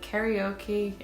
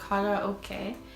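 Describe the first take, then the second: First: It is said with American English pronunciation. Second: It is said with Japanese pronunciation. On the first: The speaker calls it wrong. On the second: The speaker calls it right.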